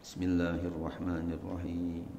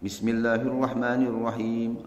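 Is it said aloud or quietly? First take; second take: quietly; aloud. First: It is recited quietly, almost under the breath. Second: It is recited aloud in a clear voice.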